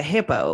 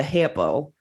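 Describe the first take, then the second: First: "hippo" in a light Southern drawl. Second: Said in the usual way. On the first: Shown as a demonstration. Trying out the hippo theory for co-hosts, Southern drawl. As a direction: say "hippo" with a touch of Southern twang. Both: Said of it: "try the hippo one in the Southern accent".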